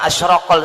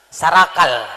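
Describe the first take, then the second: First: The word begins with a vowel, 'ash-raqal'. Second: The word begins with an 's', 'sarakal'. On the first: This is the original Arabic form. "kalau bahasanya asyraqal sebenarnya" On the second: This is how local people say it. "kalau orang sini mengatakan sarakal"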